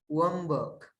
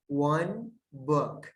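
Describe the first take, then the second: First: The word 'one' ends with an m sound. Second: The word 'one' ends with an n sound.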